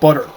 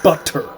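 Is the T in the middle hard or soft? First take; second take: soft; hard. First: The middle T is a soft, American D-like T. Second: The middle T is a crisp, hard T.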